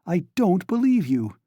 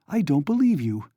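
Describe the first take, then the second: First: Higher, louder distraught cry; louder, higher repeat of the denial. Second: Raised, distraught denial; first cry of disbelief, held back a little; higher, rising toward a cry. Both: A narrator's reading. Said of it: "cried Donya".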